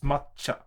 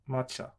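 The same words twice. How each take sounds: First: The consonant before cha is held long. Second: The consonant before cha is short. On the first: "But it's matcha. / makes it a double consonant" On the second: "if it was just written like that, it would have been"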